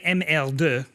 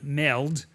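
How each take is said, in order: First: The letters are said slowly and separately. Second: The letters are run together quickly.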